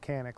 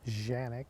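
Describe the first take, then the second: First: The name begins with a K sound. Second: The name begins with a J sound. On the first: This is how most people here say it. "I'm just going to say Canik like everybody else does" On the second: This is how it is said in its home country. "in Turkey, it is pronounced differently. It's more like Janik"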